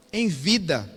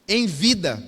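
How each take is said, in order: Both takes have the same delivery.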